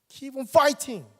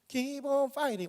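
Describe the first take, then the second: First: It is said forcefully, as a bold declaration. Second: It is said lightly and casually, following a melody. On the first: The words are proclaimed with full conviction. The speaker calls it right. "선포하라는 거예요" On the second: The words are just sung along without conviction. The speaker calls it wrong. "이렇게 하지 마시고요"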